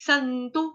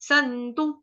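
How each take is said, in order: The two takes are said the same way.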